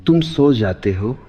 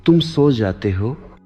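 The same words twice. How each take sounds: The two takes are said the same way.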